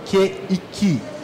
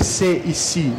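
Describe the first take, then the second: First: The consonant is pronounced as a 'k'. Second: The consonant is pronounced as an 's'. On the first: The speaker calls it right. "você vai ler Q e Ki" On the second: The speaker calls it wrong. "você não vai ler C e Si"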